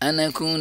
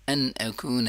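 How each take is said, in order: First: The two words run together without the glottal catch. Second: The two words stay separate with a clear glottal catch. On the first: The speaker calls it wrong. "अनकून नहीं पढ़ेंगे" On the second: The speaker calls it right. "बल्कि अन अकून"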